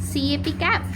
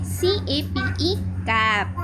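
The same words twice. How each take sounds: First: कैप with a short flat a, like cap; short vowel demo. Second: कैप with a long a, like cape; magic e long vowel demo. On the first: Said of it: "ऐसे पढ़ रहे थे". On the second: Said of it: "अब हम इसको पढ़ेंगे". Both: Shown as a demonstration.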